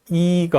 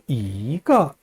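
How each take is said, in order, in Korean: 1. 첫 음절은 높고 평평한 성조입니다. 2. 첫 음절은 올라가는 성조입니다. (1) "이거 하지 않고" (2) "이를 올려서 발음합니다"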